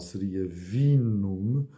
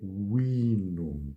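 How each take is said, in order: First: The word begins with a v sound. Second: The word begins with a w sound. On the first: "na pronúncia tradicional" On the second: "na pronúncia restaurada é vinum. Portanto, o V é pronunciado W"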